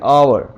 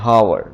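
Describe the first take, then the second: First: The word begins with a vowel sound. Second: The word begins with an h sound. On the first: The speaker calls it right. "लेकिन इसे हम पढ़ेंगे आवर। H silent हो जाएगा।" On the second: The speaker calls it wrong. "हम mostly इसे पढ़ते हैं"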